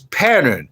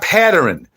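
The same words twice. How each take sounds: First: The word is said with no added syllable. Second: The word is said with an extra added syllable. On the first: The speaker calls it right. "It's pattern" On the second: The speaker calls it wrong. "It's not pattern. ... Don't add any doggone syllables"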